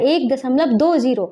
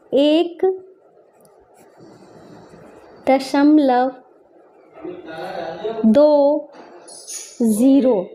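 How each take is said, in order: First: Said in the usual way. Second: Stretched words, long gaps between them; slow dictation. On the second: Shown as a demonstration. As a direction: dictate it one word at a time. Dictating while writing in words.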